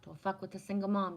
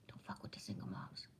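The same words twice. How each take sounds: First: Said in the usual way. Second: Hushed whispered movie line, breath only. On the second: Retold or imitated. Quoting Cuba Gooding Junior to Jerry Maguire, whispered. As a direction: drop to a whisper for the repeat. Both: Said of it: "When Cuba Gooding Junior says".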